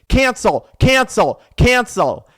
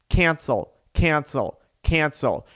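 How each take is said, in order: First: It is said forcefully and aggressively. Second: It is said at a plain, moderate volume.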